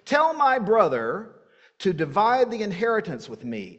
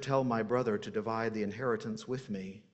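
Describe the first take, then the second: First: It is read in a lively, animated way. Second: It is read in a dry, serious way.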